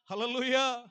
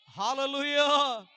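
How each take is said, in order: First: Said in the usual way. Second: Drawn-out hallelujah, much louder and slow; raised voice. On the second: Shown as a demonstration. Pastor leading the congregation's praise, in a loud drawn-out hallelujah. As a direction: lift the voice and stretch it out. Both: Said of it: "గట్టిగా స్వరమెత్తి".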